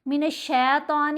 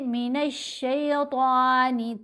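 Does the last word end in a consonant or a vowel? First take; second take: consonant; vowel. First: The word ends on a final n sound. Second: The word ends with a final i vowel. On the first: The speaker calls it wrong. "शैतान गलत है" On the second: The speaker calls it right. "पढ़ेंगे"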